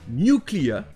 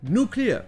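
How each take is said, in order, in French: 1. La première syllabe a un son y avant la voyelle. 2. La première syllabe n'a pas de son y avant la voyelle. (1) "en anglais britannique" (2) "Et en anglais américain"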